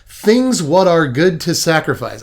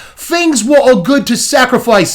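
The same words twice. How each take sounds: First: It is said in the speaker's ordinary accent. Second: It is said in a put-on British accent.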